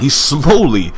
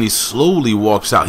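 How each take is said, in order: First: "slowly" stretched out high on the first syllable; "slowly" lengthened to mimic the slow walk; stress on slowly. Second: Said in the usual way. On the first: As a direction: draw out "slowly" with a swooping emphasis. Repeats it, acting out slowness.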